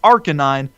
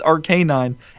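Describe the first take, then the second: First: It does not sound like 'arcane canine'. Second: It sounds like 'arcane canine' run together. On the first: The speaker calls it right. "I know it's Arcanine" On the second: The speaker calls it wrong. "it's ar- an arcane canine"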